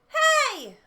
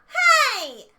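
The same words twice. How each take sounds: First: It sounds relaxed, with the mouth stretched down. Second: It sounds bright and spread, with a big smile.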